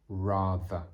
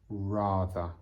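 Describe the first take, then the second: First: The middle consonant has a buzzing vibration. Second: The same.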